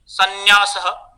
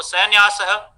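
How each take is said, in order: First: Said in the usual way. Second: सन्यासः said as sainyasah; faulty anusvara. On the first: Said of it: "अनुस्वार के विषय में". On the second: Shown as a demonstration. Teacher showing faulty nasal, सन्यासः as sainyasah. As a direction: open सन्यासः with 'sain' in place of 'san'. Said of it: "इस तरीके का दोषपूर्ण उच्चारण".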